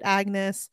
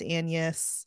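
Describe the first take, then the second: First: The name has a hard g sound. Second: The name has no g sound. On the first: The speaker calls it wrong. "I would read it Agnes" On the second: The speaker calls it right. "but I know it's Annius"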